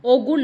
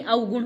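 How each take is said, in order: First: अवगुण as o-gun, loud; pure o at the start of अवगुण; wrong form. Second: अवगुण as au-gun; correct form. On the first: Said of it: "अवगुण नहीं". (गलत उच्चारण, ओगुण) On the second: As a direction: glide au at the start of अवगुण. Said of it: "अवगुण होता है". (सही उच्चारण, अवगुण) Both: Shown as a demonstration.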